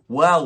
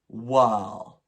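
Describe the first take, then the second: First: The word ends in a clear L sound. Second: The word ends in a vowel, like 'wow'. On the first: This is how the speaker says it. "I would say well" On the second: This is how the flatmate said it. "She would say, wow"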